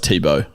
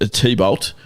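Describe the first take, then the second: First: The name is said like 'Tebow'. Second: The name is said like 'T-Bolt'. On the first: The speaker calls it right. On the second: The speaker calls it wrong.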